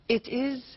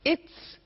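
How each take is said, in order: First: It is said as two full words. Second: It is said as one contracted syllable.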